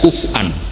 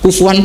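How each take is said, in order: First: A glottal stop is in the middle. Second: A w sound links the middle syllables. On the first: This is the standard Arabic form. "yang ada kuf'an pakai hamzah" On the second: This is the Quraysh dialect form.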